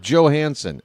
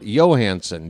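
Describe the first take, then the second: First: The name is said the American way. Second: The name is said the Scandinavian way. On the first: The speaker calls it wrong. "It's not Johansson" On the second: The speaker calls it right. "it's a Scandinavian name"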